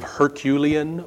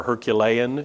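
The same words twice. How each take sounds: First: Herculean with stress on the second syllable, her-KYOO-lee-an; first pronunciation of Herculean. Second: Herculean with stress on the third syllable, her-kyoo-LEE-an; alternative pronunciation of Herculean. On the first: Preacher offering the first way to say Herculean, stressed on KYOO. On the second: Preacher offering the other way to say Herculean, stressed on LEE. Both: Shown as a demonstration. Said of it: "You can pronounce it either way".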